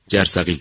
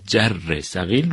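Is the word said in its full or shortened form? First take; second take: shortened; full. First: The word is said with one syllable dropped. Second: The word is said with all its syllables. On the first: "یک هجا، یک بخش به اصطلاح از اون حذف میکنیم" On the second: "یک هجا، یک بخش به اصطلاح از اون حذف میکنیم"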